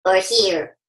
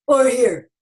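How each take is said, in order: First: Low-placed version of the same words; lower placement. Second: Changed resonance at the same pitch; shifted-placement version of the same words; different placement. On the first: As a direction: voice dropped noticeably lower. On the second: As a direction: move the sound to a new spot in the mouth. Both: Shown as a demonstration. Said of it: "Find out what's it sound like when your voice is here".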